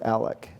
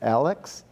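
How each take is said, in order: First: The name ends with a plain k sound. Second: The name ends with a ks sound. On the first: The speaker is a local. The speaker calls it right. "no, it's Alec" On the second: The speaker is from out of town. The speaker calls it wrong. "if you say it's Alex"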